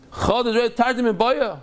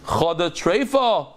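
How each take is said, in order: First: Higher, indignant repeat; mad questioning. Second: Said in the usual way. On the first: Acted. Rabbi reacting to a needless question, mad. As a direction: throw it back higher, as if annoyed. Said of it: "He would be very mad".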